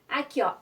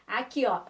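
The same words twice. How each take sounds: Both takes have the same delivery.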